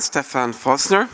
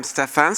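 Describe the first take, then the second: First: Slow, careful "Stefan Fosner" with a rising end; careful name. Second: Said in the usual way. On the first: Real, not acted. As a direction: spell out "Stefan Fosner" slowly, each syllable clear. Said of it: "um, Stefan".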